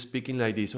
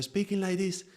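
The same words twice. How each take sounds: First: Said in the usual way. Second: Much higher voice; high-pitched. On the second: Shown as a demonstration. Teacher showing a change of pitch, high voice. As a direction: lift the whole phrase up high. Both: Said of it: "changing the pitch of the voice".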